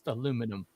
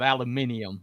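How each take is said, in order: First: It has the American four-syllable form. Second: It has the British five-syllable form. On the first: The speaker calls it right. "but it's actually pronounced aluminum" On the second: The speaker calls it wrong. "they're the ones that came up with aluminium"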